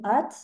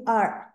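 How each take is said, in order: First: The final consonant is clearly and fully released. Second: The final consonant is barely audible, unreleased. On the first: "je les prononce à la française ici" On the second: "ils prononcent très peu la consonne finale"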